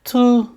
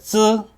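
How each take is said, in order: First: It starts with a plain t sound: tu. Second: It starts with a ts sound: tsu. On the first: The speaker calls it wrong. "이렇게 될 것 같은데, ... 뭔가 이상하지" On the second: The speaker calls it right. "투라고 하지 않고 쯔랑 처의 중간 정도의 발음"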